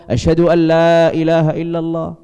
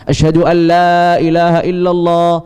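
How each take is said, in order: Both takes have the same delivery.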